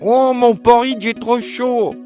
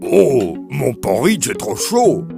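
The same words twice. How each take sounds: First: It is said in a squeaky voice. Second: It is said in a deep, gruff voice.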